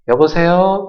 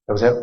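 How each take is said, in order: First: It is said in a raised, friendly voice. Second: It is said in a low, gruff voice. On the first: The speaker wants to sound pleasant to the caller. The speaker calls it right. "전화 받는 목소리도 약간 높여서" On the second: It makes the caller feel bad. The speaker calls it wrong. "내가 들을 때도 기분 나쁜데"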